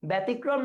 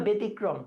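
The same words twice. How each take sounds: First: ব্যতিক্রম with an open "bæ"; open first vowel. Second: ব্যতিক্রম with a narrow "be"; closed first vowel. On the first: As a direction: say "bæ-tikrom" for ব্যতিক্রম. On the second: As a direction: say "be-tikrom" for ব্যতিক্রম. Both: Shown as a demonstration. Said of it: "সংবৃত উচ্চারণ না বিবৃত".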